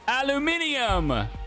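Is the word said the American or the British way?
British. It is said the British way, five syllables.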